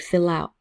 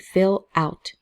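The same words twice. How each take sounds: First: The L links into the O, like one word. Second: The two words are said separately. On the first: The speaker calls it right. "So the L and the O connect" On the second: The speaker calls it wrong. "we also don't say"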